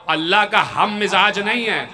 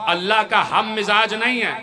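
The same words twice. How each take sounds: The two takes are said the same way.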